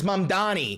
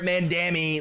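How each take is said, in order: First: The name is said as Mam-da-ni. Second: The name is said as Man-da-mi. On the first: The speaker calls it right. "The name is Mamdani" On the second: The speaker calls it wrong. "How can you not pronounce this"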